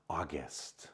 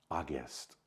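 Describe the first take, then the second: No difference in how they are said.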